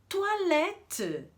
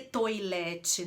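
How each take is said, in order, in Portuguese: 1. O primeiro som vogal soa como 'oa'. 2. O primeiro som vogal soa como 'oi'. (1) "escreve com O I, mas lê O A" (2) "Ninguém lê toilette"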